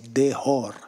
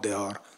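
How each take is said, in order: First: It is said with a Lebanese-French accent. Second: It is said with a standard French accent. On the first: "if you are a Lebanese and you speak French, you will have a special pronunciation for the H" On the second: "not dehor"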